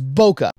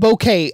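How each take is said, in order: First: The word does not sound like 'bouquet'. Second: The word sounds like 'bouquet'. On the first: "It is bokeh" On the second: "I'm not saying bouquet. Bouquet is a bunch of flowers"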